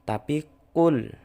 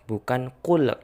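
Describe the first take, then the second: First: The final consonant stops cleanly without any bounce. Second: The final consonant is released with a bouncing echo. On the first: The speaker calls it right. "Lamnya tidak boleh mantul" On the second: The speaker calls it wrong. "banyak yang bacanya dengan qalqalah"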